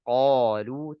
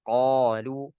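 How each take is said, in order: Both takes have the same delivery.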